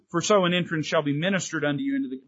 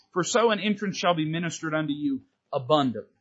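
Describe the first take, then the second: First: Fast, skipping the key word; wrong version, rushed. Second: "abundantly" given full weight, falling at the end; stress on abundantly. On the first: Preacher showing the verse without its key word, rushed. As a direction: rattle it off quickly and leave out abundantly. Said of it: "But he doesn't say". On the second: Preacher quoting the verse right, leaning on "abundantly". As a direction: land firmly on "abundantly". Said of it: "but he says". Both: Shown as a demonstration.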